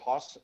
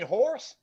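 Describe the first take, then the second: First: The word is said in a Boston accent. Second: The word is said in a non-Boston accent. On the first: This is how the speaker naturally says it. "I get shit all the time for my Boston accent" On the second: This is how the locals say it back. "they'll be like, "You mean horse?""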